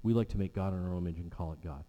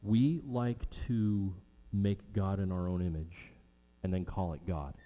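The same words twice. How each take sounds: First: Fast, run-together repeat of the line; fast throwaway repeat of the same line; quick restatement. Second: Slow, deliberate, each word weighed; slow preacher's statement with a drop at the end; slow weighty statement. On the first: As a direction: rattle it off quickly as a recap. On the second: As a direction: lay it down slowly so it sinks in. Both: Shown as a demonstration.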